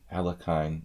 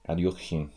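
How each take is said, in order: First: The name is said with an anglicized pronunciation. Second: The name is said with a Russian-style pronunciation.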